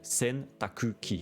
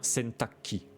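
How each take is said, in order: First: All syllables are said, including the middle ku. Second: The ku syllable is dropped, leaving a doubled k. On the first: This is the original full form of the word. "sentakuki de base c'est le mot, voilà, c'est le mot d'origine" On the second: This is a casual form that is easier to say. "Quand on le dit vite, on a souvent tendance à omettre certaines syllabes"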